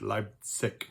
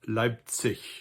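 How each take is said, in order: First: The final sound is a hard G. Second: The final sound is soft, like ch. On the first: This is how southern speakers say it. "with a hard G in the end" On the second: This is how most speakers say it. "Most Germans would pronounce it"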